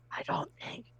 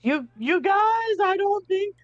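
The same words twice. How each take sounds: First: Unvoiced, much softer whisper. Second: High, strained hushed yell; whisper shouting. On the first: Player warning the crew in a hushed whisper. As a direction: drop to a bare urgent whisper. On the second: Acted. Player warning the split-up crew, high whisper shout. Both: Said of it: "I'm, like, s-, whisper shouting".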